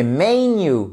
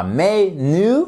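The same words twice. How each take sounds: First: "menu" as MEN-yu, N closing the first syllable; drawn-out "menu", MEN-yu, first syllable strong; correct English menu. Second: "menu" drawn out as me-nu, N starting syllable two; slow, wrong "menu", me... nu; wrongly split menu. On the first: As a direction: slowly stress MEN in "menu". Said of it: "elle englobe le N". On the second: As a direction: split "menu" slowly before the N. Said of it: "la syllabe, elle englobe le N". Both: Shown as a demonstration.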